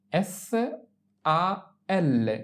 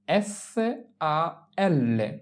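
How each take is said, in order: Both takes have the same delivery.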